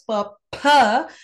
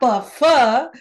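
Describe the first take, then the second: First: The second consonant is a puff through both lips. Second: The second consonant is friction between lip and teeth. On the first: The speaker calls it right. "you pronounce it as pa pa" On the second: The speaker calls it wrong. "not pa fa, which is a dantoshta letter"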